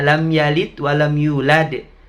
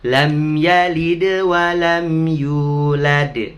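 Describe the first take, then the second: First: The consonants at 'yalid' and 'yulad' are not bounced. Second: The consonants at 'yalid' and 'yulad' are bounced. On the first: The speaker calls it wrong. "Apalagi ya" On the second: The speaker calls it right. "Semuanya dipantulkan"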